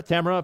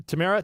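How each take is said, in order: First: Tamara said as TAM-er-uh; Tamara with a short "tam" up front; stressed first syllable. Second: Tamara said as tuh-MAIR-uh; Tamara with a long "air" middle syllable; stressed second syllable. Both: Shown as a demonstration. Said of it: "let me know how to pronounce that".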